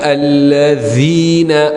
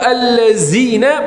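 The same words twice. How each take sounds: First: The middle consonant is a voiced th sound. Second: The middle consonant is a plain z sound. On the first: The speaker calls it right. "lidah kena dikeluarkan sikit" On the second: The speaker calls it wrong.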